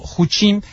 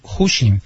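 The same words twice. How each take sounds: First: The stress is on the second syllable. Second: The stress is on the first syllable. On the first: The speaker calls it right. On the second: The speaker calls it wrong. "me sale así como acentuando la U"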